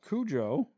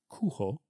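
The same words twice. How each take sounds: First: The name is said with English-style sounds. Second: The name is said with Spanish-style sounds. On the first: The speaker calls it wrong. "is not the way to pronounce the name of the dog" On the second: The speaker calls it right. "It's actually pronounced Cujo because it's Spanish for wolf"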